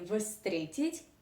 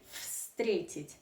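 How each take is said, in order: First: The word begins with a voiced v sound. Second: The word begins with a voiceless f sound. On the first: The speaker calls it wrong. "you do not say встретить" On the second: The speaker calls it right. "you say встретить. So the first sound of this Russian verb is f, not v"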